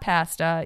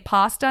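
First: It is said with a Canadian pronunciation. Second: It is said with an American pronunciation. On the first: The speaker calls it wrong. "not pasta" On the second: The speaker calls it right. "So you got to say pasta"

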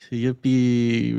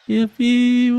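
First: It is said with less enthusiasm. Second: It is said with more enthusiasm.

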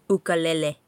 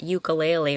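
First: It has a Hawaiian-style pronunciation. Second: It has the usual English pronunciation.

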